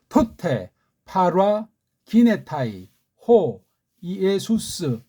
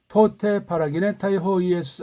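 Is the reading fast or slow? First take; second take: slow; fast. First: The words are read slowly, one by one. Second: The words are read quickly, run together. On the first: "급할 거 없어요. 천천히" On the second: "약간 빠르게 읽을 수도 있겠죠"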